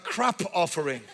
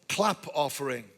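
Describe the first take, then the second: First: The first word has an R instead of L. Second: The first word has a clear L sound.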